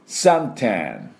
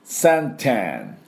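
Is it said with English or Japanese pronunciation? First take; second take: English; Japanese. First: It is said with English pronunciation. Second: It is said with Japanese katakana pronunciation.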